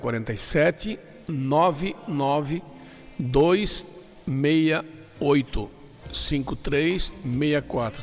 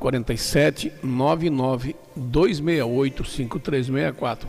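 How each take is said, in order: First: The number is said more slowly. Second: The number is said at normal speed.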